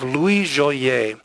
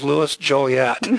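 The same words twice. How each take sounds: First: The name is said in its original pronunciation. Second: The name is said in its popular pronunciation. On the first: The speaker calls it right. "I'm going to say that only once" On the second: The speaker calls it wrong. "I'm going to mispronounce it as Louis Joliet, because everyone understands him as Joliet"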